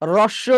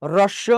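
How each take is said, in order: No difference in how they are said.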